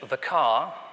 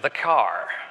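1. Es endet auf einen langen Vokal ohne r. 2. Es endet mit einem hörbaren r nach dem Vokal. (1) "so einem typischen britischen Englisch" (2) "amerikanischem Englisch"

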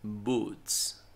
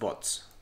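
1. La vocal suena como la oo de 'food'. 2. La vocal suena como la o de 'hot'. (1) "Una doble O casi siempre suena como U, boots" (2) "No, no es bots"

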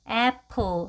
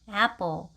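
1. p는 숨이 섞여 나오는 거센소리예요. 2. p는 힘을 준 된소리예요. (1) "애플 하는 푸 소리가 아닌" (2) "약간 된 소리로 나죠"

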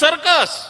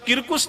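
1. શબ્દ s અવાજથી શરૂ થાય છે. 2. શબ્દ k અવાજથી શરૂ થાય છે. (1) "સી નો ક કરવાનો હતો ને" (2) "કિર્કુસ નહીં"

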